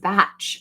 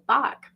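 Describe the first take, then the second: First: The name rhymes with match. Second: The name rhymes with rock. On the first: This is how the flower essences are named. "this in particular, this is batch" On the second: This is how the composer's name is said. "she kept saying Bach"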